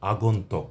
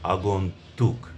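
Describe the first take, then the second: First: The last syllable is said as tok. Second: The last syllable is said as tuk. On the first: The speaker calls it wrong. "কোনো অবস্থাতেই আগন্তক নয়" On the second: The speaker calls it right. "শব্দটির শুদ্ধ উচ্চারণ করব আমরা"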